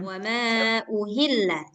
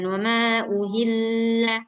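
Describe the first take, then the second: First: It is said plainly, without a nasal hum. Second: It is said with a held nasal hum. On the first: The speaker calls it right. "nggak boleh dengung di sini" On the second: The speaker calls it wrong.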